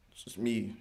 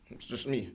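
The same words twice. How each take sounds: The two takes are said the same way.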